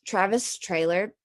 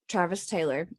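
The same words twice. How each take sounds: First: Talking with a mouthful of steak; mouth full. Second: Said in the usual way. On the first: Real, not acted. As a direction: say the name round a bite of food. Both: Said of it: "I have a steak in my mouth".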